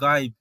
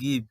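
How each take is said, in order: First: The vowel sounds like 'eye'. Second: The vowel is a short 'i'. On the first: This follows the magic e rule. The speaker calls it wrong. "Magic ই নিয়মে এর উচ্চারণ হওয়া উচিত ছিল গাইব" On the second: This is an exception to the rule. The speaker calls it right. "তো এটি কিন্তু হচ্ছে গিভ"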